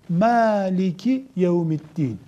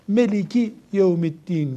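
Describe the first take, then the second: First: The first vowel is an open 'a' sound. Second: The first vowel is a closed 'e' sound. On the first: This is one dialect's reading. "Bu bir lehçesi" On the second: "başka bir Arap okurken bunu Meliki Yevmiddin diyor. Onlarda a diye ses, ağız açmak yok"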